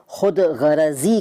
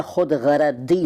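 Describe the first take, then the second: First: Said in the usual way. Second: खुद गरदी with d replacing z. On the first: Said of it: "खुद गरदी नहीं कहते". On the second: Shown as a demonstration. Teacher showing the rejected form, खुद गरदी with d for z. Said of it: "नहीं कहते".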